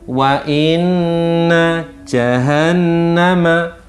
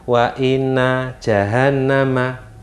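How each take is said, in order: First: The double n is held with a long nasal hum. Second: The double n is said short without nasal hum. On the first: The speaker calls it right. "Jadi membacanya begini" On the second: The speaker calls it wrong. "Kalau orang membaca dengan bacaan tanpa berdengung maka salah. Ada orang membaca"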